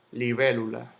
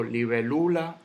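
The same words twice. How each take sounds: First: Said in the usual way. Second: Libélula stressed on LU, libe-LU-la; wrong penultimate stress. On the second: Shown as a demonstration. Teacher showing how not to say it, libélula stressed on LU. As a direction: lift LU in libélula. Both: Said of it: "Yo no digo libélula".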